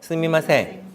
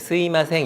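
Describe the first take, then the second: First: The second syllable is pronounced with an m. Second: The second syllable is pronounced without the m.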